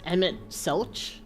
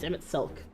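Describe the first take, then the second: First: The name ends with a 'ch' sound. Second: The name ends with a 'k' sound. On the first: The speaker calls it wrong. "I thought it was Emmett Selch" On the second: The speaker calls it right. "but it's Emmett Silk"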